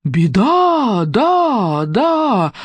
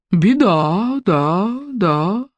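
First: A gloomy booming echo with fading repeats. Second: Sullen echo fading away. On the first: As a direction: toll the warning from above. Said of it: "мрачно загремело сверху". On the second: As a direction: repeat it grimly, dying off. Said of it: "угрюмо повторило эхо". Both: Acted.

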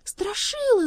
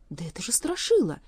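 First: High, loud cry to a friend. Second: Startled, voice rising on the name; startled recognition. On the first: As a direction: call out his name urgently. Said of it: "закричала Элли". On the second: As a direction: gasp out the name in alarm. Elli recognizes her friend. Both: A narrator's reading.

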